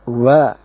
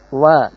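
First: The lips are rounded with an exaggerated, heavy sound. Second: The sound is light and thin, not exaggerated. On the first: The speaker calls it wrong. "Tidak berlebihan dalam pengucapan huruf ini, tidak boleh mengucapkan wa" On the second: The speaker calls it right. "Yang benar wa tipis"

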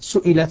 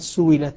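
First: The middle consonant is a glottal stop. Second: The middle consonant is a w sound.

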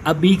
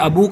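First: The word ends with a long i vowel. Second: The word ends with a long u vowel. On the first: The noun is in the genitive case. "اس میں یا آ رہا ہے" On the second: The noun is in the nominative case. "اب اس میں واو آ رہا ہے"

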